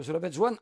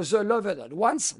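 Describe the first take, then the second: First: Said in the usual way. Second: The Loved Ones spelled out slowly, word by word; carefully articulated English film title The Loved Ones. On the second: Shown as a demonstration. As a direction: say The Loved Ones slow and deliberate so it sticks. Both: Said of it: "retenez bien ce titre".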